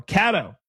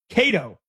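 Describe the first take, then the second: First: "Cato" with a short A, as in cat; short A pronunciation. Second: "Cato" with a long A, as in Kate; long A pronunciation. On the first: Host offering another reading of a texter's name, "Cato" said as KAD-oh. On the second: Host trying out a texter's name, "Cato" said as KAY-doh. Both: Shown as a demonstration. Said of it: "however you wanna pronounce it".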